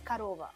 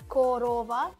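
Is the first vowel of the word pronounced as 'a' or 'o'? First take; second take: a; o. First: The first vowel sounds like an 'a'. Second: The first vowel sounds like a full 'o'. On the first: This is how the word is actually spoken. "but you pronounce karova" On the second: This is how the word is spelled. "you write korova"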